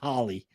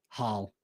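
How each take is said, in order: First: The name ends with an extra vowel sound. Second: The name ends on the l sound. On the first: "I bet you do, don't you" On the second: "I'm sure it's Hall"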